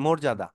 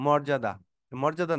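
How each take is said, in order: First: মর্যাদা with a closed "o" in the first syllable; correct pronunciation. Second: মর্যাদা with an open "aw" in the first syllable; mispronounced first vowel. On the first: Teacher correcting the word for students, মর্যাদা with rounded "mor". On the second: Teacher showing students the mistaken reading, মর্যাদা with open first vowel. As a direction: say মর্যাদা as "mawr-jada". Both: Shown as a demonstration. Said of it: "actual উচ্চারণ হবে".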